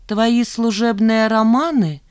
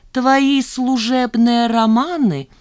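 First: Slow, higher reproach; pointed accusation. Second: Very slow, higher, savoured repeat; relishing it. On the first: Chief accountant accusing Zhanna of office affairs, pointedly. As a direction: state the charge pointedly and slowly. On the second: Chief accountant repeating her accusation, with drawn-out relish. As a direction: draw out every word with pleasure. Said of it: "с удовольствием повторила Велинская". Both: A narrator's reading.

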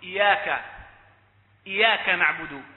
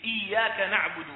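First: إياك with a single light y; إياك said short, as iyaka with one unheld y; ya without doubling. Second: إياك with a held double y; careful recitation of إياك, y doubled. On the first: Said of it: "بدل ما يقول". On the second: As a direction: press and hold the y in إياك. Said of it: "بالتجديد". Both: Shown as a demonstration.

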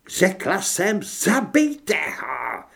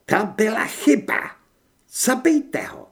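First: High, drawn-out furious yell; enraged werewolf woman's slow shriek; shrieked command. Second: High, loud angry woman; high-pitched villainess fury; seething with rage. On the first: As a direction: scream the order, stretching the last words. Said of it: "zaječela vlkodlačice". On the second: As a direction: give a furious order to kill. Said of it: "hlas překypoval vztekem". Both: A narrator's reading.

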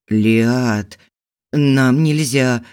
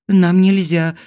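First: Slow, pained, hoarse; husband pulling away from his wife, pained; regretful rasp. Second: Said in the usual way. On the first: A narrator's reading. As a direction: rasp it with hidden pain. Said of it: "с сожалением и затаённой болью внезапно прохрипел".

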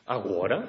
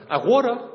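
First: Said in the usual way. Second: Agora jumps very high and loud. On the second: Acted. Repeated, high loud take.

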